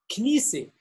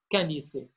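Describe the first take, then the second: First: The first two consonants are said together, no vowel. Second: A vowel is inserted between the first two consonants. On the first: The speaker calls it right. "il n'y ait pas de voyelle" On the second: The speaker calls it wrong.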